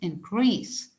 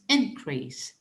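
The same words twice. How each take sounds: First: The stress is on the second syllable. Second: The stress is on the first syllable. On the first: It is used as a verb. "For the verb, we keep the stress on the second syllable" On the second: It is used as a noun. "For the noun, we keep the stress on the first syllable"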